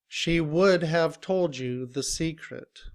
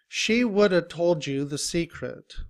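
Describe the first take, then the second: First: The word have is said in full. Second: The word have is reduced to uh.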